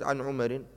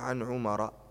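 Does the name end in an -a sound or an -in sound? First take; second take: -in; -a. First: The name ends with a nunated -in sound. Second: The name ends with a plain -a sound. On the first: The speaker calls it wrong. "فلو قلت عن عمر ما صح" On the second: The speaker calls it right. "تقول عن عمر، ممنوع من الصرف"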